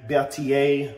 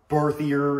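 First: The name is pronounced carefully and fully. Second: The name is pronounced in a lazy, sloppy way. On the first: The speaker calls it right. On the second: The speaker calls it wrong.

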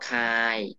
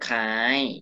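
First: The syllable has a level mid tone. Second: The syllable has a high tone.

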